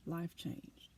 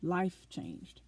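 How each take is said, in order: First: Hushed echo. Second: Said in the usual way. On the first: Real, not acted. Repeats it, near whisper.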